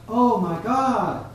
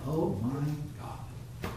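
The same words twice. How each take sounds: First: Raised, drawn-out cry to God. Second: Quiet, drawn-out throwaway oath; careless, spat out. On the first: Preacher showing someone calling out to God, crying out. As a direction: call it out high and slow, like a plea. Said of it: "when somebody cries out". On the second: Preacher showing a careless, casual use of God's name, spat out. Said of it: "it's like they're spitting it out". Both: Acted.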